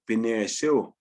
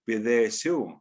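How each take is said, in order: First: It has an n sound between 'Bi' and 'esu'. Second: It has a th sound between 'Bi' and 'esu'.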